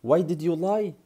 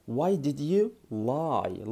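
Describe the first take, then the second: First: Said in the usual way. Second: Very slow, word by word; slow classroom model; slow teaching. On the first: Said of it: "Lie يعني كذبت". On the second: Shown as a demonstration. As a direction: spell it out slowly for learners. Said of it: "وتحط بقى".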